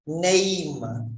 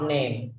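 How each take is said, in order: First: "Name" with a long gliding "ay" vowel; "Name" stretched on a clear diphthong. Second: "name" with a short, unglided e; "name" as a quick single-vowel word. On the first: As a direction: draw out "Name" as nay-eem. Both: Shown as a demonstration. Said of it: "not name".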